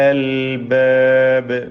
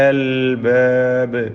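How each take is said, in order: The two takes are said the same way.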